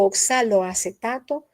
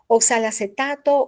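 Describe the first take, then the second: First: The 'o' after 'oxal' is pronounced. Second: The 'o' after 'oxal' is dropped. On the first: The speaker calls it right. "Para mí lo más correcto es oxaloacetato" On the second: The speaker calls it wrong. "se le va a uno de un solo"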